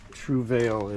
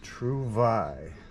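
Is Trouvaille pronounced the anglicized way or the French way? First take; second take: anglicized; French. First: The word is given an anglicized pronunciation. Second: The word is given a French pronunciation. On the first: The speaker calls it wrong. "It's not Trouvaille" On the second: The speaker calls it right. "It is Trouvaille. En français"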